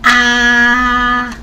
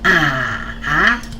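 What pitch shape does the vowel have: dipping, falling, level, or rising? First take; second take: level; dipping. First: The pitch stays high and level. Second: The pitch dips down and then rises. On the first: "This is the first tone" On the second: "goes down and then go up"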